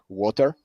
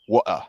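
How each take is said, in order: First: It is said in an American accent. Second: It is said in a London accent.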